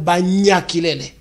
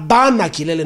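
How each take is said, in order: First: The first word has an ny sound. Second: The first word has a plain n sound. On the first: The speaker calls it wrong. "not Banya Kilele" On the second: The speaker calls it right. "we say Bana Kilele"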